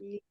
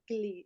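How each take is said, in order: First: It begins with a very soft l sound. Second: It begins with a hard g before the l. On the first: The speaker calls it right. "it's like a very soft L" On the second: The speaker calls it wrong. "don't say glee"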